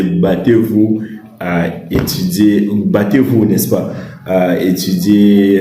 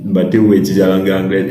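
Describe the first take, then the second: First: Drawn-out "battez-vous à étudier", each word spaced; slow and insistent, drive it home; slow emphatic urging. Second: Brisk "Battez-vous à étudier la langue anglaise" in one run; fast, matter-of-fact repeat; quick firm recap. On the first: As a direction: stretch "battez-vous" like a firm plea. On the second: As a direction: rattle it off as a summary. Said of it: "Vous comprenez?". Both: Shown as a demonstration.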